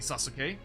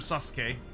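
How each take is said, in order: First: The middle u is clearly sounded. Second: The middle u is nearly silent.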